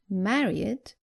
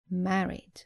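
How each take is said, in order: First: The ending is an extra 'id' syllable. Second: The ending adds no extra syllable. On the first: The speaker calls it wrong. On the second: The speaker calls it right.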